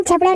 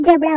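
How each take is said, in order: First: झबड़ा said with jh instead of j; mispronounced word. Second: जबड़ा said clearly with j; correct pronunciation. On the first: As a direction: quote the wrong झबड़ा with a jh sound. (झबड़ा, ग़लत झ वाला उच्चारण) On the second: (जबड़ा, सही ज वाला उच्चारण) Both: Shown as a demonstration. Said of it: "झबड़ा नहीं होता है, जबड़ा होता है".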